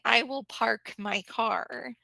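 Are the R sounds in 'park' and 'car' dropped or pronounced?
pronounced. The R sounds are clearly pronounced. This is the speaker's own regional way of saying it. "So for like where I live, I would say"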